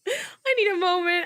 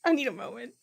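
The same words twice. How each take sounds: First: Laughing. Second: Said in the usual way. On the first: Real, not acted. Streamer cracking up, laughing version. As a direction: say it through a laugh.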